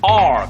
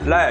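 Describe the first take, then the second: First: It is said with an English-like R sound. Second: It is said with a Korean-like sound. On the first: "선생님이 자 아니야 따라해봐" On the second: "얘가 렐, 레 이런단 말이에요"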